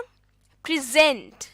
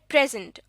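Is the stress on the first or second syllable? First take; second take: second; first. First: The stress is on the second syllable. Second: The stress is on the first syllable. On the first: It is a verb meaning to show. "दूसरे syllable पर stress देकर" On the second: It is a noun meaning a gift. "पहले syllable पर stress देकर"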